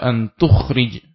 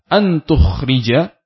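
First: The verb ends on a bare consonant. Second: The verb ends with a short a vowel. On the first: The speaker calls it wrong. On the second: The speaker calls it right.

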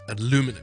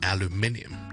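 First: The main stress is on the second syllable. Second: The main stress is on the first syllable. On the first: This is the American pronunciation. "第二个音节重音" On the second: This is the British pronunciation. "第一個重音同埋第三個音節就係重音"

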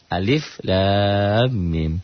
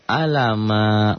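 First: Each letter is read by its full name. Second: The letters are run together as one short word. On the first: The speaker calls it right. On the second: The speaker calls it wrong.

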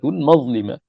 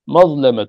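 First: The middle vowel is a close 'i'. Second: The middle vowel is an open 'a'. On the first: The speaker calls it wrong. "بالكسر ... الكسر هو الشاذ" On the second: The speaker calls it right. "بالفتح"

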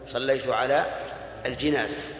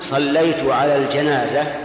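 First: The last word's first vowel is 'i'. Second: The last word's first vowel is 'a'. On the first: The prayer was over the bier. The speaker calls it wrong. "ولا تقول: ... لأن الجنازة هي النعش" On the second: The prayer was over the deceased. The speaker calls it right. "وعلى هذا فتقول"

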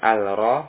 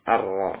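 First: The L of the article is clearly pronounced. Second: The L merges into a doubled R sound. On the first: The speaker calls it wrong. "Bukan al-ro" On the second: The speaker calls it right. "tapi ar-ro"

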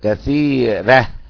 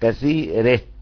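First: The r is light with an open a vowel. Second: The r is light with an e-like vowel. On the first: "الفتح مع الترقيق" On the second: "الكسائي له إمالة وله ايه ترقيق"

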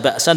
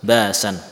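First: A glottal stop closes the first syllable. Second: A long vowel replaces the glottal stop. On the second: "menggantinya sebagai huruf mad"

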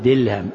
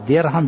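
First: The middle consonant is an l sound. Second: The middle consonant is a plain r sound. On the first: The speaker calls it wrong. "يقول دلهم" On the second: The speaker calls it right. "فبدل أن يقول درهم"

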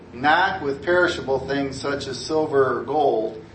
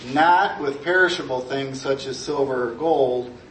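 No difference in how they are said.

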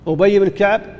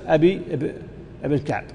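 First: The first name is said as Ubayy. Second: The first name is said as Abi. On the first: The speaker calls it right. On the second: The speaker calls it wrong.

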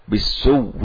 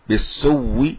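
No difference in how they are said.

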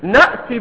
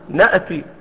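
First: The glottal stop is held clearly without bounce. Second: The glottal stop is released with a bounce.

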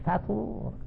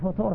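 First: The first vowel is an open 'a'. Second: The first vowel is a rounded 'u'. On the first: An ordinary morning breakfast. The speaker calls it right. "قل فطور" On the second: The meal that breaks a fast. The speaker calls it wrong. "لا تقول فطور الصباح"

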